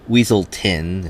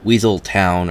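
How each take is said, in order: First: The last syllable is a reduced, short ton. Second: The last syllable sounds like the word town. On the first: A character in the film says it this way. The speaker calls it wrong. "as he keeps pronouncing it" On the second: The name contains the word town. The speaker calls it right. "I'm pretty sure it's the word town and not ton"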